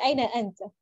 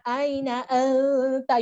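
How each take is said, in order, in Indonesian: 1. Bunyinya diucapkan longgar dan santai. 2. Bunyinya diucapkan penuh dan kuat. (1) "You just say aina anta" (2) "you don't say that"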